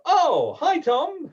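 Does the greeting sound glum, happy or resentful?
happy. The greeting sounds warm and happy.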